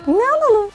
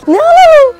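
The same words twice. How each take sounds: First: Said in the usual way. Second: Very high, loud playful question; excited question. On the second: Pretend. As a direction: ask it like a thrilling game. Shopping game with toddler. (çocuğa market oyununda yüksek sesle heyecanlı soru)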